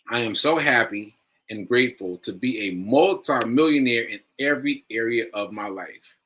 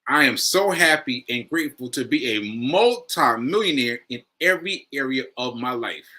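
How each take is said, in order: First: It is read flatly, without emphasis. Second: It is said with strong emphasis.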